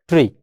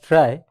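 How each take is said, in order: First: The word rhymes with 'tree'. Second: The word rhymes with 'try'. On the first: "some other users say is it as tree" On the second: "based on the pronunciation of this trie, we can just call it as trie"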